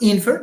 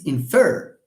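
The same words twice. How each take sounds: First: The stress is on the first syllable. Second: The stress is on the second syllable. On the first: The speaker calls it wrong. "it's not infer" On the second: The speaker calls it right. "it's infer"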